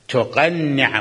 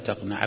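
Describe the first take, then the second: First: The middle consonant is doubled. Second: The middle consonant is single. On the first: It means to put on a head covering. The speaker calls it right. "مو هيك نقرأ أحسن؟" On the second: It has no meaning here. The speaker calls it wrong. "ما إلى معنى تقنع بلا تجديد"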